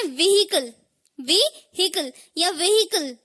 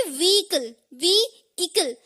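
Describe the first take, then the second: First: व्हीकल with a sounded h, "vi-hi-kal"; wrong pronunciation. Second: व्हीकल as "vee-ikal", long stressed ee; silent h. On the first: Teacher showing what some people say, व्हीकल with audible h. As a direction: say व्हीकल as "vi-hikal" or "ve-hikal". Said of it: "वो बिल्कुल गलत है". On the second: Teacher giving the right form, व्हीकल as "vee-ikal". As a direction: say व्हीकल without h, then slowly split. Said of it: "एच को silent रखना है". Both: Shown as a demonstration.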